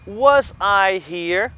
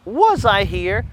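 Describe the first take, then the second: First: Was I here drawn out slowly with a rise; slow question modelling. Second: Said in the usual way. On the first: Shown as a demonstration. Teacher demonstrating the question slowly to students. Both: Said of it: "eu vou dizer assim".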